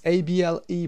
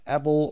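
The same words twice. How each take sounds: First: "able" as a suffix, uh-bull; weak "able" ending. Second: "able" said ay-bull; long-A "able". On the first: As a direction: say "able" with a short vowel, not like "ay". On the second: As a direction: open "able" with a long "ay", like the word able. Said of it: "pronounced able or able". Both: Shown as a demonstration.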